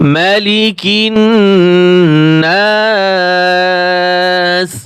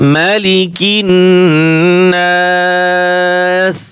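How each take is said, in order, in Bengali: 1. প্রথম স্বরধ্বনিটি হ্রস্ব রাখা হয়। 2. প্রথম স্বরধ্বনিটি হ্রস্ব রাখা হয়।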